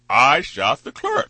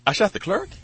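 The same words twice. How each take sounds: First: It is said as a flat statement. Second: It is said as an incredulous question. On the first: The speaker admits to the act. "when they read that back" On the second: The speaker disbelieves the accusation. "he says"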